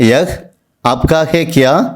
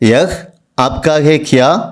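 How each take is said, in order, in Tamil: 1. முதல் வார்த்தை முழு 'yah', இறுதியில் h உடன். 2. முதல் வார்த்தை முழு 'yah', இறுதியில் h உடன்.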